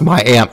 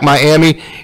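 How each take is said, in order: First: The name is said the local Oklahoma way. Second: The name is said the way it is spelled. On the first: This is how the Oklahoma town is named locally. "it's actually pronounced Miami" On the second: This is the usual reading of the spelling. "even though it's spelled like Miami"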